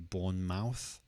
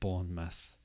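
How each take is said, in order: First: The stress is on the last syllable. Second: The stress is on the first syllable. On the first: The speaker calls it wrong. "some people might try to say Bournemouth" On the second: The speaker calls it right. "the stress is on the first part"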